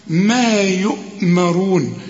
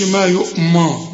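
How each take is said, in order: First: ما held slowly before يؤمرون; correct madd. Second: ما يؤمى cut short; wrong reading. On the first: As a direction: lengthen ما in ما يؤمرون. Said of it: "إن الميم ما". (ما يؤمرون بمد) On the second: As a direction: voice the faulty ما يؤمى. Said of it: "ما تقولش". (النطق الغلط) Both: Shown as a demonstration.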